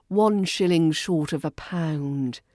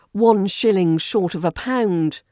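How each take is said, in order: First: Dry sarcasm. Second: Said in the usual way. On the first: Shown as a demonstration. Teacher demonstrating a British jibe, dry matter-of-fact sarcasm. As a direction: state the jibe as plain fact. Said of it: "Say it with dry, matter-of-fact sarcasm".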